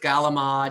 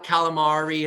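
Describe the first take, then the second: First: It is said in an Italian-American accent. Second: It is said in a standard American accent.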